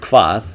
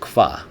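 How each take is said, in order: First: The word ends with a final consonant sound. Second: The word ends on the vowel, consonant dropped.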